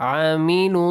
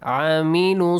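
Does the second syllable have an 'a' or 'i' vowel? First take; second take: I; I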